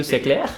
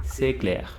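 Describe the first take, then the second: First: CLAIR raised at the end, as a question; question intonation. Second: CLAIR falling, not raised at the end; closed affirmative intonation. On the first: Teacher asking the student, questioning rise on clair. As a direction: ask c'est clair with a lifting final clair. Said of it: "So if I ask you". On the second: Student simply says it back, affirmative fall on clair. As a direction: state c'est clair with a closed, dropping clair. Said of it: "with a closer sound, not opening it". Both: Shown as a demonstration.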